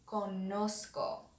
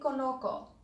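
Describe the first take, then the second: First: An s sound comes before the k. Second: There is no s sound before the k. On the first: The speaker calls it right. "Spanish inserts a letter to try to preserve that s sound" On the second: The speaker calls it wrong. "it's not going to be conozco, and that's because conozco doesn't sound like this verb conocer"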